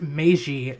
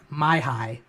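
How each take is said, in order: First: The middle consonant is a J sound. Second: The middle consonant is an H sound. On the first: The speaker calls it right. "the word was pronounced Meiji" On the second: The speaker calls it wrong. "not Maihai"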